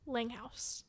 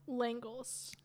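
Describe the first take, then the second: First: The second syllable sounds like 'house'. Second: The second syllable sounds like 'les'. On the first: This is how people in the hometown say it. "the town I grew up in, they pronounce it differently" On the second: This is the way the name's owner prefers it. "Which way do you prefer?"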